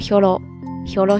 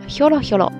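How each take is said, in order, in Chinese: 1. 一开始低，然后保持平稳。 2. 先高，然后下降。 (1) "只是这个时候的声调呢要读作ひょろひょろ" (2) "ひょろひょろ这个副词"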